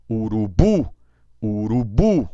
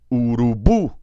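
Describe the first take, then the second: First: Urubu called out louder, stress on bu; called as written. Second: Urubu called loud with stress on bu; natural Portuguese. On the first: Teacher calling the word as written. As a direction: call urubu like a playground call. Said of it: "Chama no parquinho". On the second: Teacher calling urubu in normal Portuguese. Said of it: "Chama na língua portuguesa". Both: Shown as a demonstration.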